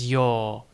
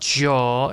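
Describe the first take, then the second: First: The syllable begins with a Y sound. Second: The syllable begins with a J sound. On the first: The speaker calls it right. "it's yo" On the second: The speaker calls it wrong. "It's not jo"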